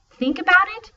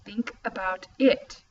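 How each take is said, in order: First: High, loud questioning "Think about it?"; incredulous mocking. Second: Amused, "it" rising at the end; slow, amused, lift "it"; stress on it. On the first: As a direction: scoff at the clue. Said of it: "Nia insisted". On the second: Acted. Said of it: "his voice amused, rising on the last word".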